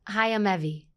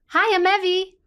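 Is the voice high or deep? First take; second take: deep; high. First: It is said in a deeper, fuller voice. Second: It is said in a higher, lighter voice.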